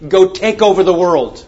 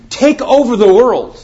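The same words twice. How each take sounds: First: Said in the usual way. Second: "Take over the world" hit higher and louder; the repeated command, proclaimed high and loud; emphatic repeat. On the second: Acted. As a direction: hurl "Take" out like a rallying cry. Repeats command, much stronger.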